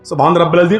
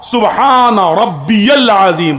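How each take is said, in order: First: It is rushed, the words running together. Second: It is slow, each word said clearly.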